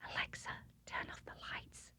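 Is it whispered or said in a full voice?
whispered. It is whispered very quietly.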